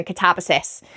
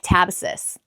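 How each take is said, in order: First: Said in the usual way. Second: American-accented pronunciation of "catabasis". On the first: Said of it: "in my little Welsh accent". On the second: Shown as a demonstration. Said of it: "sounds better in an American accent".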